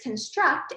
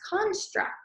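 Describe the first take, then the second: First: The stress is on the second syllable. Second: The stress is on the first syllable. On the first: It is used as a verb meaning to build. "When it is a verb, the word is construct" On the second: It is used as a noun meaning a theory or idea. "When it is a noun, the word is pronounced construct"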